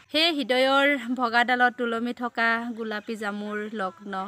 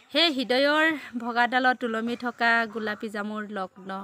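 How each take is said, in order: The two takes are said the same way.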